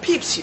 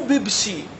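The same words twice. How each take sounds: First: It begins with a P sound. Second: It begins with a B sound. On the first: The speaker calls it right. "لا بيبسي" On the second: The speaker calls it wrong. "مو بيبسي"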